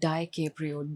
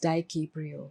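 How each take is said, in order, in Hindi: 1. पहला उच्चारण-खंड 'die' जैसा सुनाई देता है। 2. पहला उच्चारण-खंड 'die' जैसा नहीं सुनाई देता।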